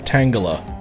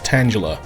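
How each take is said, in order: First: The g is hard, as in tangled. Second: The g is soft, as in Angela. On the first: "I think it's Tangela, because tangled" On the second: "because it's literally the name T Angela with a T at the front"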